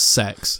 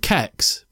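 First: The name begins with an s sound. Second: The name begins with a k sound. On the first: "they pronounce it as sex" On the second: "I used to call it Kex"

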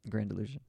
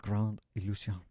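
First: The title is said with English pronunciation. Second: The title is said with French pronunciation.

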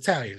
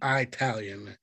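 First: It is said in the ordinary, standard way. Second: It is said in a folksy, old-prospector drawl. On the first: The speaker calls it right. "it's Italian" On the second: The speaker calls it wrong. "Now I say Italian. It's not"

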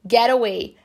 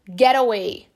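First: It is said in an American accent, R-like T. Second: The same.

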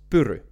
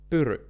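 First: The r is rolled with full mouth movement. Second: The r is rolled with full mouth movement.

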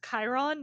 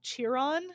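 First: The name begins with a K sound. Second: The name begins with a CH sound. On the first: The speaker calls it right. "It's Chiron" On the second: The speaker calls it wrong. "not Chiron"

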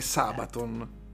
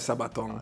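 First: The stress is on the first syllable. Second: The stress is on the last syllable. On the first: The speaker calls it right. "È sulla prima, è Sabaton" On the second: The speaker calls it wrong. "Non è Sabaton"

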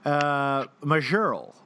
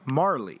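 First: The name sounds like 'Majerl', with a j sound. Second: The name sounds like 'Marley', without a j sound. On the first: The speaker calls it wrong. "was how one might mispronounce it" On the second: The speaker calls it right. "So M-A-J-E-R-L-E, Marley"

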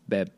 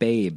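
First: The word has a short vowel, like 'bed'. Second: The word has a long vowel, like 'babe'. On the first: The speaker calls it right. "It's Beb" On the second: The speaker calls it wrong. "It's not Babe"

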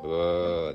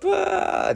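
First: It is said in a low voice. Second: It is said in a high voice.

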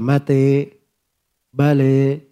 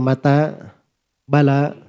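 First: The final vowels are fronted toward e. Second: The final vowels are a plain open a.

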